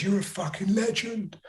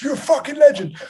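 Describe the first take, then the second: First: High, thin mock voice of a heckler from the crowd; a light put-on heckler voice, pitched up; heckler impression. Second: Much higher and louder, yelled; aggressive heckle. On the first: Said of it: "I think he goes". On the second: Retold or imitated. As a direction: bellow it like a drunk aggressive bloke. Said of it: "it was properly aggressive".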